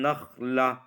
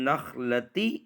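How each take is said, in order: First: The word ends with a soft 'h' sound. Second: The word ends with a 'ti' sound. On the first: The speaker calls it right. "इस गोलता को हा से बदल देंगे" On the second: The speaker calls it wrong. "ऐसे वक़फ़ नहीं किया जाएगा"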